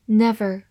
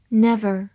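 Both takes have the same delivery.

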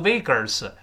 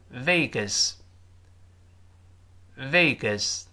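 First: "Vegas" with a curled-tongue r, like "Vay-gers"; mistaken r-coloured vowel. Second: Slow "Vegas" with a plain schwa, "VAY-guhs"; no tongue curl. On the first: Teacher warning against a reading, r-coloured "Vegas". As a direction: slip an r into the second syllable of "Vegas". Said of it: "不要读Vegas". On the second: Teacher modelling for learners, "Vegas" without r. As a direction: say "Vegas" slowly, no r before the s. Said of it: "所以不要勾舌头". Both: Shown as a demonstration.

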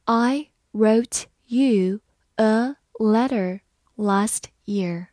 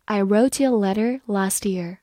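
First: Slow, each word separate; slow reading. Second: Said in the usual way. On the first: Shown as a demonstration. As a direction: read it slowly, word by word. (慢读，逐词停顿) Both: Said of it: "好，慢读一遍".

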